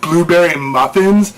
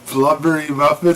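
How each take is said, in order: First: The first word is said as blue-berry. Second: The first word is said as blubbery. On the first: "she made blueberry muffins" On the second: "she'd pronounce it like blubbery muffins"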